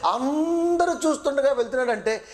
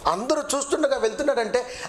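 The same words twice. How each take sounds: First: అందరూ stretched long on its first syllable; stress on అందరూ. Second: Said in the usual way. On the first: Shown as a demonstration. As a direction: draw out అందరూ to drive it home. Repeats it to stress "everyone. ("అందరూ" పదాన్ని సాగదీసి నొక్కి చెప్పడం)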